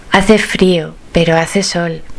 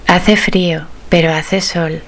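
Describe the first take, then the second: No difference in how they are said.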